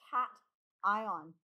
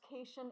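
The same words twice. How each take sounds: First: The first syllable sounds like the word 'cat'. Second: The first syllable sounds like 'kay', following the spelling. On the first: The speaker calls it right. "it is pronounced cation" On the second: The speaker calls it wrong. "it looks like it could be pronounced cation, but it is not pronounced cation"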